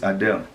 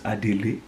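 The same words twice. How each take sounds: First: The name is said the American way. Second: The name is said the African way. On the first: This is how outsiders say the name. The speaker calls it wrong. "You Americans call this Adele" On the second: This is how the name's own people say it. The speaker calls it right. "What we call this name is Adele"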